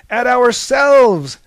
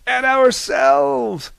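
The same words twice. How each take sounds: First: High, loud, slow shout. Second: High, loud, slow chorus; group toast shout. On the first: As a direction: bellow "ourselves" as a rallying cry. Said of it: "shouted Prometheus". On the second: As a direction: roar "ourselves" together as a toast. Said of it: "toasted the others". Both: A narrator's reading.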